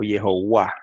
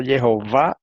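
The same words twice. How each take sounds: First: JEHOVÁ with the v said as w, "ye-ho-WA"; w pronunciation. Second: JEHOVÁ with a v before the final stressed A; v pronunciation. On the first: Asking which form is right, Jehová as "ye-ho-WA". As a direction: glide a w into the final stressed A of Jehová. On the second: Asking which form is right, JEHOVÁ with a v. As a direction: say Jehová with a v sound. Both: Shown as a demonstration. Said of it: "es con W o con V".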